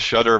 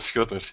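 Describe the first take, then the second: First: The name is said with an English pronunciation. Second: The name is said with its native pronunciation. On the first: This is the everyday version used among English speakers. The speaker calls it wrong. "in English, I typically just say the Shutter" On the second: This is how the name is really meant to sound. The speaker calls it right. "but it's actually the Schutter"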